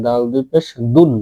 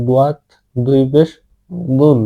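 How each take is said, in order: First: দুন with a light, thin Arabic d; thin Dal. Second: Heavy, thickened Arabic Dwad at the start of বুন; slightly thick Dwad. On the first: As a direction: keep the d of দুন thin, not heavy. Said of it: "চিকন করে বলার চেষ্টা করবেন". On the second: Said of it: "এটা হালকা মোটা করবেন". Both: Shown as a demonstration.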